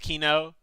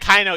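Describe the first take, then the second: First: The first vowel sounds like 'ee'. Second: The first vowel sounds like 'eye'. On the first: The speaker calls it right. "I know that it's Kino" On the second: The speaker calls it wrong. "I always pronounce it as Kaino"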